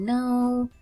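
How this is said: It is said in a soft, kind tone.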